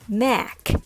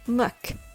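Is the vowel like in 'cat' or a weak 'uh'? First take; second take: cat vowel; weak uh. First: The vowel is a full 'a' as in cat. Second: The vowel is a very weak 'uh' sound. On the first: The speaker calls it wrong. "so you might think it's mac. I'm sorry, it's not" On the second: The speaker calls it right. "with a very weak sound"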